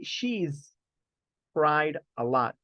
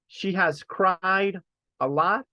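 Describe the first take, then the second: First: The words 'she has' are contracted to 'she's'. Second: The words 'she has' are said in full. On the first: "Or we can say she's cried a lot. It's just that this one here is like the contraction of she has" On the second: "I can say she she has cried a lot"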